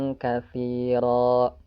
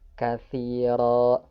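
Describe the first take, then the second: No difference in how they are said.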